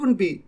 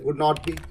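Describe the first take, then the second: First: Would and not merge into one contracted word. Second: Would and not are said as two full words. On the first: "contraction use कर लेते हैं। बोलते वक्त ऐसा होता है" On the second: "ये नेगेटिव सेंटेंस है"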